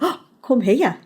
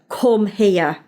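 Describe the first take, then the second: First: It sounds warm and playful. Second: It sounds annoyed and stern.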